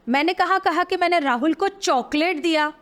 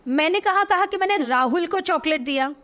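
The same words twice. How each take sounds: First: The stress is on chocolate. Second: The stress is on Rahul.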